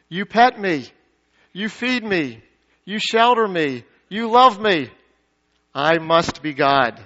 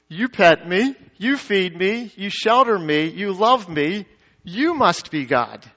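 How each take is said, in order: First: Smug cat logic, each phrase falling; self-centered cat. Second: Devoted dog, phrases lifting at the ends; adoring dog. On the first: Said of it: "A cat says". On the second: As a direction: build the list with rising tones, then land slowly on the conclusion. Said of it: "A dog says". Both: Acted.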